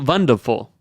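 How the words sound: The word starts with a V sound.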